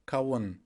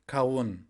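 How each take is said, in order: Both takes have the same delivery.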